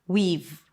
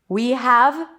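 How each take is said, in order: First: Have is reduced to just a v sound. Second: The word have is said in full.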